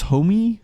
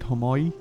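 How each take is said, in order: First: The word ends with an 'ee' sound. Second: The word ends with an 'oy' sound. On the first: This is how others sometimes say it. "I hear it pronounced as Homi sometimes" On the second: This is how the speaker says it. "but I call it Homoi"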